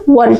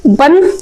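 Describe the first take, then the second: First: वन with a rounded w, never a b; rounded-w ONE. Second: Said in the usual way. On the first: Shown as a demonstration. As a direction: say वन as "wuan", lips rounded. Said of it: "क्या पढ़ना?". (वन को "बन" नहीं, गोल "वॉन" बोलें) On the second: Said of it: "वन नहीं पढ़ना है".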